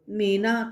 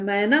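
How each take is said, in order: First: मेना said with a closed e vowel; wrong word read out. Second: मैना said with an open ai vowel; correct word. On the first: Teacher to pupils showing the wrong मेना with a closed e. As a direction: read मेना as mena, not maina. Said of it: "तो मेना तो होता नहीं है". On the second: Teacher telling pupils the correct मैना with an open ai vowel. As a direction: read मैना as maina with an open ai. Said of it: "क्या होता है?". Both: Shown as a demonstration.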